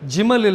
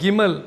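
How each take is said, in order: First: The word begins with a j sound. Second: The word begins with a hard g sound. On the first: The speaker calls it wrong. "ஜிமல் இல்லை" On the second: The speaker calls it right.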